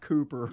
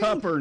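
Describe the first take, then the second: First: The name is said with a standard pronunciation. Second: The name is said with a Texan pronunciation. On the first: The speaker calls it wrong. "not Cooper" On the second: The speaker calls it right. "Like a Texan"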